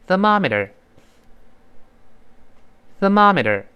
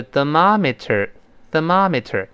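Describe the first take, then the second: First: "thermometer" with the T softened to a quick D; normal-speed flapped T. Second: "thermometer" slowly, with a crisp T in "meter"; slow reading. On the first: Teacher leads students reading aloud, flapped-T pronunciation. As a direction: let "meter" sound like "medder" in "thermometer". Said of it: "语速一快的话". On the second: Teacher shows the slow version for repeating, slow reading. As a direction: sound out "thermometer" slowly for followers. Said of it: "那么读慢了呢". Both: Shown as a demonstration.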